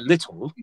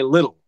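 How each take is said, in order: First: The middle t is a crisp t sound. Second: The middle t is a soft d-like tap. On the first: "We're not British people, so we don't say little" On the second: "We say little, ... makes the D click kind of"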